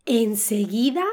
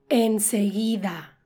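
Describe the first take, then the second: First: "Enseguida" rising at the end, then a beat; sarcastic opening intonation. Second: Low, slow sarcastic agreement, falling. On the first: Shown as a demonstration. Teacher shows the tune at sentence start, sarcastic. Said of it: "La entonación aquí". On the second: Acted. Replying to advice to buy a Mercedes, sarcastic. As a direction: drawl it to mean no way. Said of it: "responder con sarcasmo".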